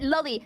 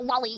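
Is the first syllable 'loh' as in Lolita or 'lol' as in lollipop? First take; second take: Lolita 'loh'; lollipop 'lol'. First: The first syllable sounds like 'lo' in Lolita. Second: The first syllable sounds like 'lol' in lollipop. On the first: It refers to the term from the book. The speaker calls it right. "I pronounce it lolly, like Lolita" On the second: It sounds like the word for a sweet. The speaker calls it wrong. "like Disney here is cringe"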